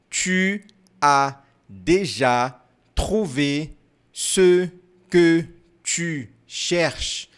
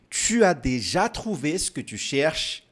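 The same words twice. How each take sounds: First: The sentence is said more slowly. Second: The sentence is said at normal speed.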